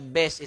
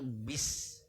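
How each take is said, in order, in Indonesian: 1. Vokalnya condong ke bunyi 'e'. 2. Vokalnya bunyi 'i' yang jelas dan penuh. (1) "Walaupun dibaca bes itu tidak merubah makna ya, tidak merubah makna, tapi itu salah" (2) "I betul-betul i, harus utuh, jangan sampai miring"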